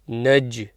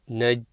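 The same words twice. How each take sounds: First: The final j is released with a slight bounce. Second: The final j stops flat with no release. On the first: The speaker calls it right. "it's Naj" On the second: The speaker calls it wrong. "not Naj without a bounce"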